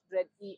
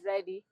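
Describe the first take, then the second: First: The name is said as two separate parts. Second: The name is said as one word. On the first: The speaker calls it wrong. "it's not Red E. I'm not Red E" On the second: The speaker calls it right. "I'm ready"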